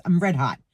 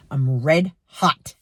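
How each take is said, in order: First: Said in the usual way. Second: Slowed red hot. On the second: Real, not acted.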